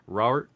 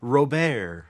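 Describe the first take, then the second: First: Robert as plain English ROB-ert; Robert with the final t sounded; English pronunciation. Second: Robert as French roh-BEHR; Robert with a silent t, stress at the end; French pronunciation. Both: Shown as a demonstration. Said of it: "It's, it's pronounced Robert".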